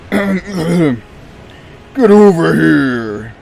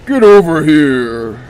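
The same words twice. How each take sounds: First: Slow, drawn-out growling yell; Scorpion voice. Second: Loud, quicker growled yell; Scorpion voice. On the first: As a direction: bellow it like Scorpion pulling you in. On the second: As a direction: shout it like the fighter's catchphrase. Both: Shown as a demonstration. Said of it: "do the Scorpion voice better".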